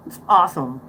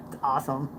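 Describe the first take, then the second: First: Said in the usual way. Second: Soft murmured aside to self; hushed, almost to yourself; quiet. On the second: Real, not acted. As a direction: say it under your breath, then repeat it aloud. Repeats phrase, first quietly.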